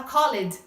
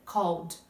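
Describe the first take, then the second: First: "called" said as two syllables, co-led; wrong called. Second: "Called." one syllable, kowd with a dark L; correct called. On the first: Teacher mocks how beginners say it. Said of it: "Ninguém vai entender se você fala called". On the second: Teacher models the right way for students. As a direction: say "Called." short, no E sound. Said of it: "Ninguém vai entender". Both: Shown as a demonstration.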